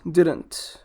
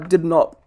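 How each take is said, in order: First: It is said as one shortened word. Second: It is said as two separate full words.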